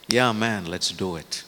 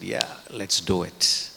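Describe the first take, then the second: First: Excited cheer. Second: Slow, drawn-out "Yeah, let's do it" with a touch of excitement; mock enthusiasm. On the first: Retold or imitated. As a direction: fire up the crowd with "Yeah, man". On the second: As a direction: draw out "let's do it" like eager disciples. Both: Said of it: "they're excited".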